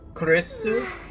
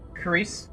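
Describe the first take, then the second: First: The name ends with an added u vowel. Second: The name ends sharply on the s sound. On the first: "in Japanese accents" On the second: "her name sounds like Chris"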